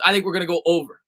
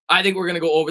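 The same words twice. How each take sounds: First: Said in the usual way. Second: Deliberate voice crack mid-phrase. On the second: Shown as a demonstration. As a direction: let the voice crack on purpose. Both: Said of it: "That was an intentional voice crack".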